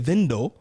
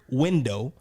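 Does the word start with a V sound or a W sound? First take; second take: V sound; W sound. First: The word starts with a V sound. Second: The word starts with a W sound. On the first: "a W sounds like a V" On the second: "if a person says the word window"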